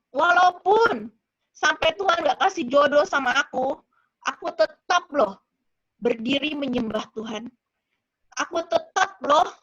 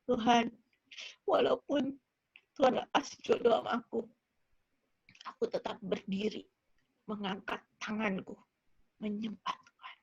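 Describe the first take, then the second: First: Louder, insistent retold declaration; forceful pledge, recounted; emphatic vow to God. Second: Low, soft, broken-up prayer; subdued imitation of weeping surrender; tearful prayer, re-enacted. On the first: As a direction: declare it firmly, leaning on the key words. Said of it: "aku bilang gitu sama Tuhan". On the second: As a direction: pray it quietly as if through tears. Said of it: "Sambil nangis tapi".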